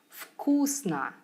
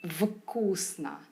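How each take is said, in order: First: Said smoothly, with the first consonant devoiced. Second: Said carefully, with the first consonant kept voiced. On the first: The speaker calls it right. "it must have sounded more effortless and natural" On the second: The speaker calls it wrong. "I'd enunciate certain sounds"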